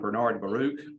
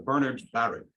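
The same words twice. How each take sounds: First: The stress falls on the second syllables of both names. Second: The stress falls on the first syllables of both names. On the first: The speaker calls it wrong. "I pronounced for a long time Bernard Baruch" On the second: The speaker calls it right. "he himself emphasized the first two, first syllable in both names"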